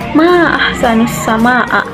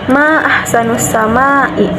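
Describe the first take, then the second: First: The last word ends with an 'a' vowel. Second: The last word ends with an 'i' vowel. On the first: It exclaims how beautiful the sky is. The speaker calls it right. "dengan memfathahkan hamzah yang berarti kekaguman" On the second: It asks what is most beautiful in the sky. The speaker calls it wrong. "dengan mengkasrokan hamzah"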